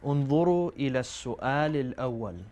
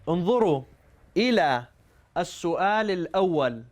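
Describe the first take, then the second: First: The sentence is spoken at normal speed. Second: The sentence is spoken slowly and carefully.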